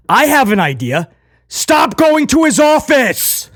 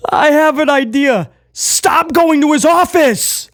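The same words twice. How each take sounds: First: Higher, slow, dead-serious quote; earnest slow quote of Priest; sincere Priest impression. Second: Higher, slow, dead-serious delivery; mock-solemn Priest line; sincere Priest impression. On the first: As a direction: mimic him deadpan and earnest. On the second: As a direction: repeat it slower and earnest. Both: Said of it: "the sincerity in his voice".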